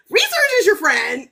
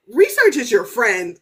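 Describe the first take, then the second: First: Research repeated higher, rising at the end; repeated louder. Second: Said in the usual way. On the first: Retold or imitated. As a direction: push Research harder the second time. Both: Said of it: "I was like".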